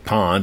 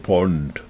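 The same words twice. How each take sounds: First: It is said with an American vowel. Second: It is said with a British vowel. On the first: "they don't say pond" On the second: "they say pond, like James Bond"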